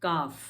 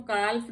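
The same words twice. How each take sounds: First: काफ with a silent l; काफ without the l; correct pronunciation. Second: काल्फ with the l sounded; काल्फ as kalf; wrong pronunciation. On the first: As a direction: say काफ as kaaf. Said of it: "नहीं पढ़ते हैं". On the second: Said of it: "काल्फ नहीं पढ़ते हैं". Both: Shown as a demonstration.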